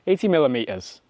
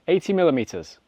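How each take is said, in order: First: It is said in a British accent. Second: It is said in a British accent.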